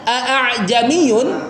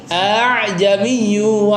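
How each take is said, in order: First: The second glottal stop is pronounced fully. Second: The second glottal stop is softened and eased. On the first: This is the underlying original form. "hamzah keduanya yang tadinya" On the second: This is the eased form used in recitation. "jadi ... itu melembutkan tuh, dimudahkan"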